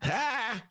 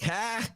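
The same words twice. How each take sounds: First: High mock "Ha!", copying a colleague; second-hand Pritzker scoff; imitation of an imitation. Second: Sharp high mock laugh; hammed-up high politician scoff; Governor Pritzker impression. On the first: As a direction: throw out a high bark of a laugh. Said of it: "my imitation of Dennis doing imitation of Pritzker". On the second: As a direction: bark a high one-syllable "Ha!". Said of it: "That was my Governor Pritzker imitation".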